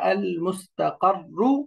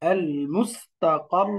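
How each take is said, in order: First: The word ends with a short 'u' vowel. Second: The word stops on a held doubled 'r'. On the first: The speaker calls it wrong. "এরকম পড়া যাবে না" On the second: The speaker calls it right. "দাম্মাটা সুকুন হয়ে যাবে"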